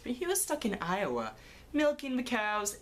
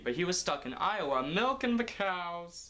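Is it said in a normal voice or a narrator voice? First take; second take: narrator voice; normal voice. First: It is said in a put-on narrator voice. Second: It is said in a normal voice.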